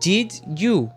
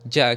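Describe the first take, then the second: First: Both words are said fully and separately. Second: The words merge into one short reduced syllable. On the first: The speaker calls it wrong. "você acha que o nativo vai falar assim" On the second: The speaker calls it right. "a gente vai falar do, do ou ja"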